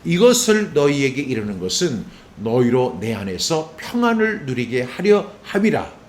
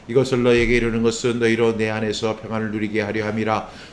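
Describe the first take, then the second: First: It is read with strong emphatic accents. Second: It is read flatly, without emphasis.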